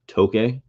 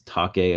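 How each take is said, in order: First: The vowel sounds like the one in 'toke'. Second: The vowel sounds like the one in 'take'. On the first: The speaker calls it right. "I think it's actually pronounced Toke" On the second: The speaker calls it wrong. "at least I used to pronounce Take"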